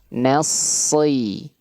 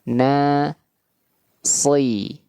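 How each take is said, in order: First: The two syllables run together without a pause. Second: The two syllables are split by a pause.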